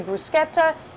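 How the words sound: It is said the Italian way, with a 'k' sound.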